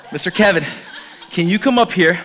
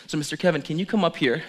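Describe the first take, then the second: First: Louder call, laughing through it; louder laughing repeat of the invite. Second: Said in the usual way. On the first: Real, not acted. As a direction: call him up again with a laugh.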